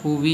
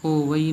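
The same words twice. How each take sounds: First: ਹੋਵੀ in two parts, ho-vee; merged vee mistake. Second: ਹੋਵਈ in three parts, ho-va-ee; separate a-i. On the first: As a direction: drop the a, say ਹੋਵੀ. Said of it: "ਹੋਵੀ ਨਹੀਂ ਬੋਲਣਾ". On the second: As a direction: keep the a before ee in ਹੋਵਈ. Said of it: "ਹੋਵਈ ਨੂੰ ਹੋਵਈ ਬੋਲਣਾ ਹੈ". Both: Shown as a demonstration.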